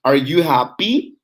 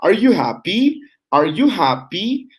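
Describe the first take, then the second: First: "Are you happy?" rising up on happy at the end; rising intonation. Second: "Are you happy?" said twice, pitched higher, climbing on happy; rising intonation. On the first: Teacher modelling a yes-no question, rising at the end. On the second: Teacher drilling the question for students to repeat, rising. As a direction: let each happy rise high at the end. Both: Shown as a demonstration. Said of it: "That's raising intonation".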